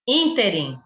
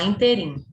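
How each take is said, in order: First: The stress is on the first syllable. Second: The stress is on the last syllable. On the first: The speaker calls it right. "É o certo" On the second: The speaker calls it wrong. "Tem gente que fala interim"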